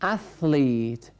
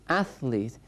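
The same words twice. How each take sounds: First: اتلیت drawn out very slowly with a clear th, æθlit; slow th demo. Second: Said in the usual way. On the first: Shown as a demonstration. Teacher shows the class the th in اتلیت, said very slowly. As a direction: spell out اتلیت slowly, tongue between the teeth for the th. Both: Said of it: "صدای تی اچ یادتون هست؟".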